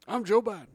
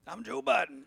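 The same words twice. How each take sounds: First: Lightly voiced Biden, a bit higher; a hint of old Biden, dropping the line; Joe Biden impression. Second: Joe Biden impression. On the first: Co-host joking about cancelled debt, light Biden voice. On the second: Host echoing his co-host, a light Biden impression. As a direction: lightly mimic Biden back.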